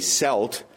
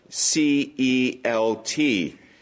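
First: The word begins with an s sound. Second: The word begins with a k sound. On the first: The speaker calls it wrong. "Some people mispronounce that and say Celt" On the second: The speaker calls it right. "Celt is spelled C-E-L-T"

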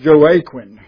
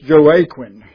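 First: The name is sounded out as spelled. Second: The name is sounded out as spelled.

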